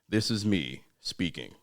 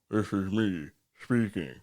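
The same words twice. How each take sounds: First: Spoken in a normal, natural speaking voice. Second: Spoken with the tongue pulled back into throat. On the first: "my regular speaking voice" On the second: "if I put it in my throat"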